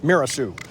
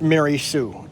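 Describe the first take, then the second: First: The name starts like 'mirror', said as Mirasu. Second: The name starts like 'Mary', said as Mary Sue. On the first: The speaker calls it wrong. "as a child I always thought it was Mirasu" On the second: The speaker calls it right. "No, it's Mary Sue"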